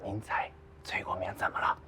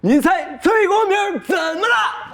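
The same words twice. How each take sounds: First: It is said quietly. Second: It is said loudly, almost shouted.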